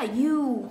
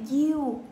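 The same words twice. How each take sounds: First: "you" said the American way; American pronunciation. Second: "you" said the British way; British pronunciation. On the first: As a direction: say "you" as an American would, drawn out. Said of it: "Chúng ta nói you thì đây là tiếng Mỹ". (phát âm "you" kiểu Mỹ) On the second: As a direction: say "you" as a Briton would, drawn out. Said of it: "chúng ta nói you thì đây là tiếng Anh". (phát âm "you" kiểu Anh) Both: Shown as a demonstration.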